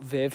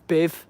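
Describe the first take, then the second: First: The name begins with a V sound. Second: The name begins with a B sound. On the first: This is how the name is normally said. "not Viv" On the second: This is how a Spanish speaker said the name. "this rep was calling my mum Biv"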